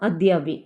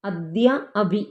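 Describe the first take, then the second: First: One word, the two a sounds merged long. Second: Two words with short a sounds, kept separate.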